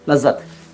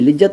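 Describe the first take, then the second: First: The first vowel sounds like 'a'. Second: The first vowel sounds like 'i'. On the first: The speaker calls it right. "लज्जत छोटा है लेकिन देख लो" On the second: The speaker calls it wrong. "लिज्जत नहीं"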